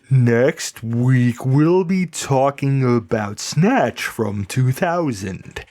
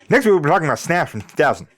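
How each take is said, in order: First: It is said slowly so the words are clear. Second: It is mumbled quickly in an unclear put-on accent. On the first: "slow it down" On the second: "Nobody can understand anything he says"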